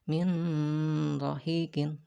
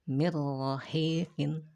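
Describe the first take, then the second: First: The n is sounded separately before the r. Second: The n merges fully into the r, without nasal hum. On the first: The speaker calls it wrong. "bukan min rahiqin" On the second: The speaker calls it right. "Langsung dibacanya mirrahiqin"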